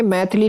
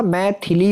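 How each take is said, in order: First: "मैथिली" run together quickly; quick middle vowel. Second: "मैथिली" slowly, as "mai-thi-lee"; clear middle i. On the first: Teacher showing students the mistake, मैथिली with swallowed middle i. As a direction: say मैथिली as brief "maith-li". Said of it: "मैथिली नहीं होता". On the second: Teacher giving students the correction, मैथिली slow with clear "thi". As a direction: stretch मैथिली, sounding the i after th. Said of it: "थे पे छोटी की मात्रा". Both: Shown as a demonstration.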